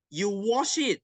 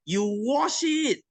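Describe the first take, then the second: First: Said in the usual way. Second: "You wash it." high and slow, falling on "it"; emphatic. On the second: Acted. Teacher hammering home the lesson, high and slow. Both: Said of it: "repeated instruction".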